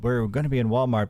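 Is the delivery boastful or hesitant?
hesitant. It is mumbled quietly with hesitant fillers. The news is being slipped in quietly. "fumbling through a video, like while trying to like kind of like whisper that in"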